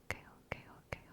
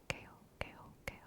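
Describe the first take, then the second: Both takes have the same delivery.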